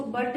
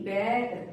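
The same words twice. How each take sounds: First: बट with a short 'uh' vowel; wrong reading. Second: Said in the usual way. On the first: Shown as a demonstration. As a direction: misread bat as बट, like "but". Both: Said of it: "इसको बट नहीं बोलेंगे".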